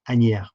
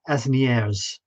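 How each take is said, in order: First: The s is silent in the middle. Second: Every letter is sounded, including the s. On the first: The speaker calls it right. "and they say" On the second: The speaker calls it wrong. "if I pronounced every letter, it would be"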